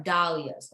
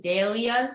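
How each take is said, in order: First: "dahlias" said slowly with DAH as the first syllable; modelled pronunciation. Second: "dahlias" said with DAY as the first syllable; student's pronunciation. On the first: Shown as a demonstration. Teacher shows students how to say it, "dahlias" slowly as DAH-lee-uz. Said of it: "Try and say, try and say". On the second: Retold or imitated. Teacher repeats how the student says the word, "dahlias" as DAY-lee-uz. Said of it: "I hear you saying dahlias".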